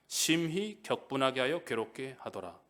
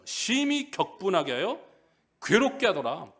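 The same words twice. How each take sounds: First: Said in the usual way. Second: 심히 leaned on with a rising, slow reading; slow reread stressing 심히 and 괴롭게. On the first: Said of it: "어떻게 했다고요?". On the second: Shown as a demonstration. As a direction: drag out 심히 so the extra word stands out. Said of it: "근데 또 붙였어요".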